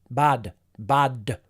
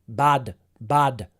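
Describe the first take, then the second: The two takes are said the same way.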